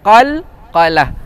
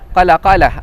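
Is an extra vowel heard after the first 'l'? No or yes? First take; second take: no; yes. First: The first two syllables join with no extra vowel. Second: An extra vowel splits the first two syllables. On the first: The speaker calls it right. "sebut qalqalah tu betul-betul" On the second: The speaker calls it wrong. "bukan qalaqalah. Qalaqalah, uh, bukan"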